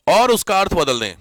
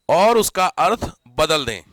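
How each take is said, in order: First: Said in the usual way. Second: और उसका अर्थ बदल दें slowed right down, each word spaced; slow dictation. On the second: Shown as a demonstration. Teacher dictates slowly for students taking notes. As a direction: spell it out slowly so they can write. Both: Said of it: "जानबूझ के बोल रहा हूं मैं".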